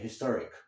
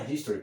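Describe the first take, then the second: First: "historic" stressed on TOR; "historic" ending on a k; historic, the adjective. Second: "history" stressed on the first syllable; "history" ending in ee; history, the noun. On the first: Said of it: "portanto, seria historic". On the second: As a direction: say "history" as HIS-to-ry. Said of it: "Aqui não seria history". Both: Shown as a demonstration.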